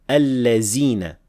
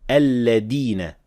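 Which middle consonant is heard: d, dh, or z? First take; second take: z; d. First: The middle consonant is a z sound. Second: The middle consonant is a d sound. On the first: "very commonly mispronounced as allazina with zay" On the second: "others mispronounce it as dal"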